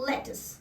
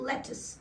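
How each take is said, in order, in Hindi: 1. यह शब्द छोटी 'tus' की आवाज़ से खत्म होता है। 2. यह शब्द छोटी 'tus' की आवाज़ से खत्म होता है।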